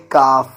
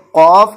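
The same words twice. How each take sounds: First: کاف with a light front k; light kaaf. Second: قاف from the back of the throat, louder; deep qaaf. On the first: Teacher contrasting kaaf with qaaf for students. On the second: Teacher contrasting qaaf with kaaf for students. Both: Shown as a demonstration. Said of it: "اس کو بھی کاف نہیں پڑھیں گے".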